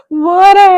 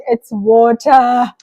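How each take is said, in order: First: "Water" high and loud in a put-on accent; imitating son's pronunciation. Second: "water" drawn out slowly and loudly; corrective pronunciation. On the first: Parent mimicking a child back from school, loud accented "Water". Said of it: "My son came back saying". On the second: Retold or imitated. Parent correcting a three-year-old, loud drawn-out "water". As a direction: stretch "water" out, loud and emphatic. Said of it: "you were like".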